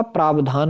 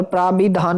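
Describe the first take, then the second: First: प्रावधान without i, praab-dhaan; corrected pronunciation. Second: प्राविधान with i, praa-bi-dhaan; wrong pronunciation. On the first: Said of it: "होता है". (प्रावधान में 'वि' नहीं, 'व' बोलें) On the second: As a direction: sound 'bi' in प्राविधान. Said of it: "नहीं होता". (प्राविधान में 'वि' बोलें) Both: Shown as a demonstration.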